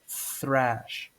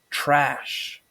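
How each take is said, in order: First: The word begins with a th sound. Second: The word begins with a plain t sound. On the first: The speaker calls it right. "but it's actually pronounced thrash" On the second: The speaker calls it wrong. "normally people pronounce thrash as trash"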